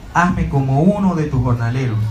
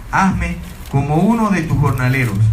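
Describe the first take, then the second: No difference in how they are said.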